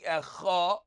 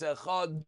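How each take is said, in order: First: The a vowel is held too long. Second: The final d sound is held too long. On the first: "it's not the ch that's going longer, it's the ah" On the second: "you have too much on the dalid"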